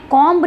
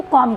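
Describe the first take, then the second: First: कॉम्ब with the final b sounded; wrong pronunciation. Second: कॉम ending on a plain m; silent b. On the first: Teacher shows what is not said, कॉम्ब with audible b. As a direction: say कॉम्ब, voicing the b at the end. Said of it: "नहीं कहा जाता". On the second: Teacher gives the correct form, कॉम with silent b. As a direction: say कॉम with no b after the m. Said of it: "इसको कॉम कहा जाता है". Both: Shown as a demonstration.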